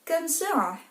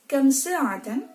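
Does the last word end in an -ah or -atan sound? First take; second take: -ah; -atan. First: The final word stops short, ending in -ah. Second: The final word keeps its full -atan ending. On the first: This is the pausal form used in dialogue. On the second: This is the full form with the case ending.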